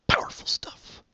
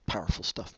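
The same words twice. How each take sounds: First: Hushed breathy whisper. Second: Said in the usual way. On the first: Acted. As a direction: breathe the words out with no voice. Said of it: "repeats phrase in a whisper". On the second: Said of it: "repeats phrase then whispers it".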